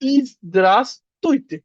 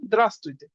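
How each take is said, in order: First: The opening iz sound is pronounced. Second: The opening iz sound is dropped. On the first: It is the full, careful way of saying it. "আপনি যদি খুব ভালোভাবে বলতে চান" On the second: It is a casual everyday way of saying it. "ওরা কিছুটা এই কায়দায় বলে"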